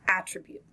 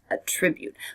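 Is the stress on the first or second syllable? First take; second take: first; second. First: The stress is on the first syllable. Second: The stress is on the second syllable. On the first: It is a noun meaning a quality. "We are going to start with the noun" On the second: It is a verb meaning to credit a cause. "Here the stress is on the second syllable"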